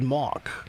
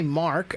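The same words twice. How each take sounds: First: The R sound after the vowel is dropped. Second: The R sound after the vowel is pronounced. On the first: This is how a child with a speech impediment said the name. The speaker calls it wrong. "I said Mark, which is exactly what it would sound like if you were from" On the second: This is how the name should sound. The speaker calls it right. "I didn't say Mark"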